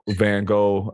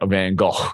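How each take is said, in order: First: The name is said without a throaty, raspy sound. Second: The name is said with a raspy throat sound.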